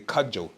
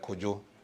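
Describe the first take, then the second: First: The name is said the European way. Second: The name is said the Ghanaian way. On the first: The speaker calls it wrong. "people who can't pronounce the name, they say Kajo. It's a wrong tone" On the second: The speaker calls it right. "you have in Ghana, you have people's name like Kojo"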